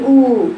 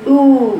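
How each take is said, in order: First: «أو» بلا مشاركة الجوف; انطق «أو» من الفم فقط; أو خاطئة. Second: «أو» قوية عميقة مضمومة; أشرك الجوف في «أو». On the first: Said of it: "بتقرأيها ساعات خطأ تقولي". («أو» سطحية من الشفتين) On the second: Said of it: "مشاركة الجوف". («أو» عالية الصوت من الجوف) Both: Shown as a demonstration.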